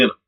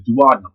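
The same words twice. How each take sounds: First: "duodenum" as doo-uh-DEE-num; duo-DEE-num variant. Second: "duodenum" as doo-AHD-num; du-OD-enum variant. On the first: Teacher adding the other pronunciation, "duodenum" as doo-uh-DEE-num. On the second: Teacher explaining where enzymes go, "duodenum" as doo-AHD-num. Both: Shown as a demonstration. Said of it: "Some people say duodenum".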